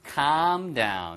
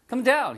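First: "calm down" with a drawn-out "ah" in "calm"; long vowel in CALM. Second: "come down" with a short "uh" in "come"; short vowel in COME. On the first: Teacher contrasting with come, "calm down" with a long vowel. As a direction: stretch "calm" long, as in "kaahm down". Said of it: "발음만 길게". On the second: Teacher contrasting with calm, "come down" with a short vowel. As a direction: keep "come" brief, as in "kum down". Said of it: "come이 아니에요". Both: Shown as a demonstration.

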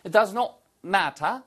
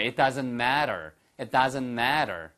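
First: British "matter" with crisp t and no r, higher pitch; British accent. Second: American "matter" with a tapped t; American accent. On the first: Teacher demonstrates for students, British accent. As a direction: put on British pronunciation for "matter". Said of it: "이것도 역시 똑같이 영국식 발음이잖아요". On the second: Teacher models it for students to repeat, American accent. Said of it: "한번 미국식으로 한번 해보실까요". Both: Shown as a demonstration.

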